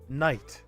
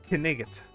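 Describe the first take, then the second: First: The word has one syllable with silent consonants. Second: The word has two syllables with sounded consonants. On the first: This is how the word came to be said later. "they started pronouncing it Night instead" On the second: This is how the word was originally said. "originally it was actually pronounced Knigget"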